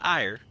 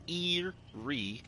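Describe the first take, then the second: First: The word rhymes with fire, with a long i. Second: The word rhymes with weary, with a long ee. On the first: The speaker calls it wrong. "not ire" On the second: The speaker calls it right. "That's Eerie"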